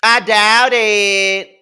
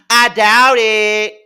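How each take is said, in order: First: Slower drawn-out scoff. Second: Drawn-out scoff. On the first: Repeating the scoff. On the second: Scoffing at Portia's school claim. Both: Real, not acted.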